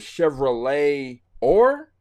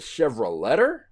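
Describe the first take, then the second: First: No T sound is pronounced before the ending. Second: A T sound is pronounced before the ending. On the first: "when you pronounce Chevrolet, you don't pronounce the T" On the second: "does that make it the Chevroletter?"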